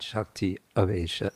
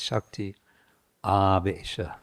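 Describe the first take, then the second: First: The first vowel of Avesha is short. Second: The first vowel of Avesha is long. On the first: The speaker calls it wrong. "It's not Shakti Avesha" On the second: The speaker calls it right. "it's Shakti Avesha. It's a long A"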